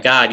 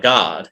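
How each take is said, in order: First: Said in the usual way. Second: God stretched into two syllables, Southern style. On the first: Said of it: "when you say one syllable words". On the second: Shown as a demonstration. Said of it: "make it two syllables like God".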